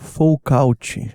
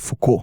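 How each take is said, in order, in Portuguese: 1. O nome é pronunciado de um jeito português. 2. O nome é pronunciado de um jeito francês. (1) "Imagine eu falando Michel Foucault" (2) "todo mundo sabe que é Foucault"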